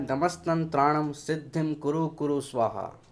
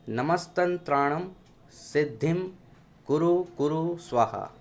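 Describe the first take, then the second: First: It is recited at a normal speed. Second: It is recited slowly and deliberately. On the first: This is how it should be recited. "सामान्य गति से पढ़ के सुनाता हूँ" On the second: It is slowed down so listeners can follow. "धीरे धीरे उच्चारण करता हुआ पढ़ूंगा"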